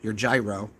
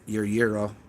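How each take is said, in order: First: Gyro is pronounced the American way. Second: Gyro is pronounced the non-American way.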